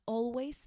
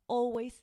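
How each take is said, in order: No difference in how they are said.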